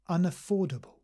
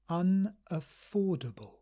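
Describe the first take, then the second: First: The word is said at normal speed. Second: The word is said slowly and carefully. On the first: "let's read them all at normal speed" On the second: "So slowly first"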